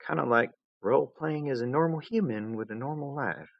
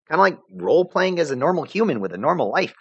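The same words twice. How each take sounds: First: Softer, wistful recollection; wistful echo. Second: Put-on casual high girl voice; tossing it off lightly; breezy. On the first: A narrator's reading. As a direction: recall it with a hint of sadness. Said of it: "She'd sounded sad, almost". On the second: Vriska's line, later recalled.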